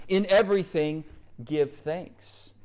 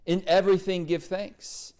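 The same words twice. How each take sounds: First: "everything" drawn out and stressed; emphasis on everything. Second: "everything" stretched with a rising tune; emphasis on everything. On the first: Preacher stressing the verse to his listeners. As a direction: lean on "everything". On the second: Preacher repeating the verse to stress it. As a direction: lift and hold "everything". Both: Shown as a demonstration. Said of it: "I want to emphasize that part".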